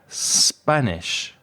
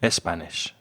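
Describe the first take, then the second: First: The word starts directly with the s sound. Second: An extra e sound comes before the s. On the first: The speaker calls it right. "I am Spanish" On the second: The speaker calls it wrong.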